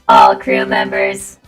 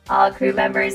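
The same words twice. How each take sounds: First: The robot voice is very loud. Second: The robot voice is quieter.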